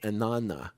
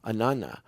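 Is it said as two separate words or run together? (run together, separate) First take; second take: run together; run together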